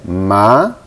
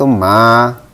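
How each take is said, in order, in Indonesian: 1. Nadanya naik di sepanjang suku kata. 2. Nadanya tetap datar. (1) "nada kedua itu naik" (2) "nada pertama itu ma"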